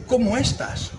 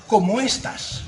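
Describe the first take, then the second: First: ¿Cómo estás? with the tune falling at the end like a statement; flat statement. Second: ¿Cómo estás? with a clear rising question tune at the end; asking question. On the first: Same greeting repeated, read as a falling statement. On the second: Friend greets him by message, asked as a rising question. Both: Shown as a demonstration. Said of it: "no es lo mismo estás que estás".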